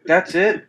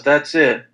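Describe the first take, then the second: First: THAT'S IT raised high, rising at the end; disbelieving question. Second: THAT'S IT falling to a close; matter-of-fact confirmation. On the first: Listener reacting to a bad joke, "That's it?" high and rising. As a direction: ask "That's it?" as a let-down question. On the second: Joke teller confirming the joke is over, "That's it." falling. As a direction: answer "That's it." as a plain statement. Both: Retold or imitated.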